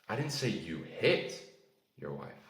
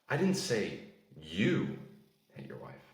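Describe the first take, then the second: First: The word 'hit' carries the stress. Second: The word 'you' carries the stress. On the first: Something else was done to her. "maybe you shouted at your wife" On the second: Someone else did it. "Someone else did, not you"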